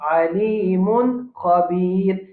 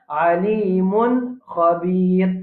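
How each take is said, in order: The two takes are said the same way.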